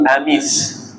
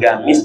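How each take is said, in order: First: The word begins with a glottal stop. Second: The word begins with a hard g sound. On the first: Some Arabs say it this way. "ada yang menyebut huruf qaf dengan hamzah" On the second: This is how Egyptians say it. "kalau orang Mesir itu menyebutkan huruf qaf dengan ghain"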